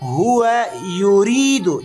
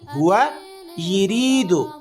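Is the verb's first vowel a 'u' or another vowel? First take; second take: u; other. First: The verb's first vowel is a 'u'. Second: The verb's first vowel is not a 'u'. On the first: The speaker calls it right. "यहाँ पर पेशे जेर नहीं है" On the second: The speaker calls it wrong. "ये जुमला गलत है"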